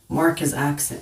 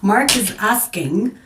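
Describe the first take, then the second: First: The verb sounds like 'aksing', with k before s. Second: The verb sounds like 'asking', with s before k. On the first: The speaker calls it wrong. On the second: The speaker calls it right.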